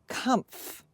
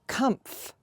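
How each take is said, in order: No difference in how they are said.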